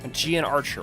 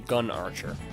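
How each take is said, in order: First: The first word has two syllables. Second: The first word has one syllable. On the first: This is the form the speaker prefers. "I much prefer Gian Archer" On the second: This is how some other people say it. "as some people call it, or pronounce it"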